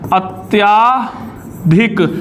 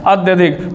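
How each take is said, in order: First: The vowel after 'ty' is long. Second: The vowel after 'ty' is short. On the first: The speaker calls it wrong. "ये शब्द गलत होता है" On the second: The speaker calls it right. "शुद्ध शब्द"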